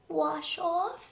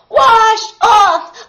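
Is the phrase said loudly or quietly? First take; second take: quietly; loudly. First: It is murmured quietly in a small voice. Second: It is shouted loudly with full force. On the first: She is only just guessing the answer. "in a small voice, she murmured" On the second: She is sure and calling to everyone. "shouted with all her strength"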